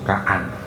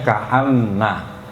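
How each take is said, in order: First: The word ends on a single n, no vowel. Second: The word ends with a doubled n and vowel. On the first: "dibaca ringan sehingga nunnya disukun" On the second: "Aslinya ka'anna"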